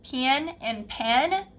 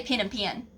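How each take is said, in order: First: "pen and pen" slowly drawn out as two distinct words, "pin" then "pen"; careful standard pronunciation. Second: "pen and pen" said quickly with nearly the same Southern vowel; Southern pin-pen merger. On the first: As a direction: carefully separate "pen and pen" into pin and pen, rising at the end. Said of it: "Saying pen is really hard for me". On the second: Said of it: "We say pen and pen". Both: Shown as a demonstration.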